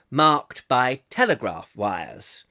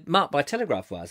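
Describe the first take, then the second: First: Slow, deliberate posh BBC reading; plummy, measured BBC accent. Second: Said in the usual way. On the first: Pretend. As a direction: draw it out in old BBC English. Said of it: "another bit of the B B C".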